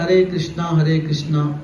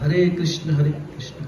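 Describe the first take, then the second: First: Krishna ends with a long 'aa' vowel. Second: Krishna ends without a long final vowel. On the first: The speaker calls it wrong. "कृष्णा भी नहीं बोलना है आपको" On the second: The speaker calls it right. "कृष्ण बोलने का प्रयास"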